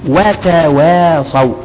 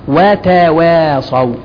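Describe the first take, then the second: The two takes are said the same way.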